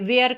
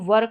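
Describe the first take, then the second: First: The vowel sounds like 'air', as in wear. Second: The vowel sounds like 'er', as in her. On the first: The speaker calls it wrong. "वेयर करके इसको पढ़ देते हैं, जो कि गलत है" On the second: The speaker calls it right. "इसको वर करके पढ़ना है"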